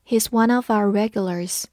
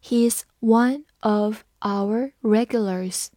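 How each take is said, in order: First: Said in the usual way. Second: Slow, careful read-along. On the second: Shown as a demonstration. Teacher reading slowly for students to repeat. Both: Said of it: "我们慢读一遍".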